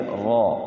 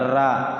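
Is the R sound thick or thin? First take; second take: thick; thin. First: The R sound is heavy and thick. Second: The R sound is light and thin. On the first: The speaker calls it right. "dibaca tafkhim ya, tebal" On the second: The speaker calls it wrong. "Jangan ra. Kalau ra tipis"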